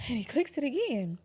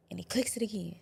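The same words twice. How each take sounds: First: Higher and louder on again; raised, tense. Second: Breathy hushed whisper on clicks; hushed retelling. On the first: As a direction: push it out, rising dread. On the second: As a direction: let it drop to a whisper, tense. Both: Retold or imitated. Retelling gun being clicked.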